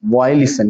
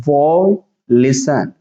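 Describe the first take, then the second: First: Said in the usual way. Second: Very slow, stretched "violation"; syllable by syllable. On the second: Shown as a demonstration. Teacher showing students how to read it, slowly broken up. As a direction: draw out "violation" as separate parts with pauses. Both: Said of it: "इसको पढ़ेंगे".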